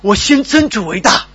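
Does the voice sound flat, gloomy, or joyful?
joyful. It is said in a joyful, lively tone. The heart is full of joy. The speaker calls it right. "但如果我这样读呢"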